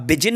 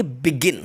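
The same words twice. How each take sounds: First: "बिजिन" with a j in the middle; the mistaken take: "बिजिन" with a j; "बिजिन" said as bi-jin; wrong soft j. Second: "बिगिन" with a hard g in the middle; the correct take: "बिगिन" with a hard g; "बिगिन" said as bi-gin. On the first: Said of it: "बिजिन नहीं बोलेंगे". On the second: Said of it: "इसको बोलेंगे बिगिन". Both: Shown as a demonstration.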